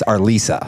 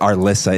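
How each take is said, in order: First: The middle syllable has a long 'ee' vowel. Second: The middle syllable has a short 'ih' vowel. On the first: The speaker calls it right. "It's Arlisa" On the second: The speaker calls it wrong. "people mispronounce it Arlissa"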